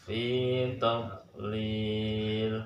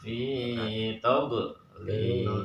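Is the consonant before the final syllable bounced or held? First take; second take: held; bounced. First: The consonant is held firmly without any bounce. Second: The consonant is released with an echoing bounce. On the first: The speaker calls it right. "jangan sampai mantul" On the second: The speaker calls it wrong. "enaknya dipantulkan fi tadlil ya. Tapi itu yang salah ya"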